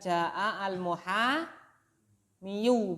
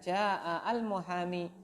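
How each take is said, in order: First: The last word ends with an added 'yu' sound. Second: The last word ends on a long 'ee' sound. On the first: The speaker calls it wrong. "Bukan ja'al muhamiyu, bukan begitu" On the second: The speaker calls it right. "Tapi ditakdirkan ja'al muhami"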